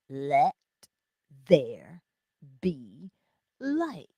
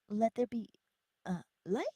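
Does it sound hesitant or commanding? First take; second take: commanding; hesitant. First: It is said firmly, like a command. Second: It is said hesitantly, like a question.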